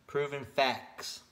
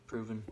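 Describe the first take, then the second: First: Proven slow, loud and higher; emphatic stress. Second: Said in the usual way. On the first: Real, not acted. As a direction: drag out proven facts insistently. Repeats word for emphasis.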